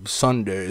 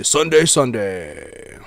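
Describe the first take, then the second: First: Said in the usual way. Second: Slow booming announcer echo; monster truck ad. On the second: Shown as a demonstration. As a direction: stretch each Sunday like a truck rally ad. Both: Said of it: "those old monster truck commercials".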